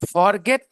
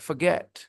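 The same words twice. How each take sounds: First: The stress is on the first syllable. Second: The stress is on the second syllable. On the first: The speaker calls it wrong. "फॉर को आप जब stress कर दोगे तो फिर वो word दूसरा साउंड करने लगता है" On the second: The speaker calls it right. "Stress second syllable पे है।"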